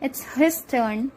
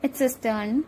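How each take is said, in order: First: The H at the start of his is pronounced. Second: The H at the start of his is dropped.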